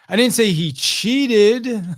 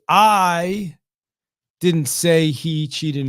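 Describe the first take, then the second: First: The word "cheated" carries the main stress. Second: The word "I" carries the main stress. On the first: What he did was not quite cheating. "he just wasn't technically cheating, just fudging the score a little bit" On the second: Someone else said it. "So it's like I didn't say it, right? Someone else may say it"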